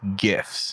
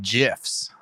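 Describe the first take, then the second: First: The G is hard, like in go. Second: The G is soft, like a J. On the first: The speaker calls it right. "I believe the correct pronunciation is GIFs. ... As the G stands for graphic" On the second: The speaker calls it wrong. "But then Claire said"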